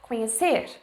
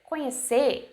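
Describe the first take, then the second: First: The final R sound is pronounced. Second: The final R sound is dropped. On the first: It sounds formal. "instead of" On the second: It is casual, everyday speech. "Cut the letter R and just say like"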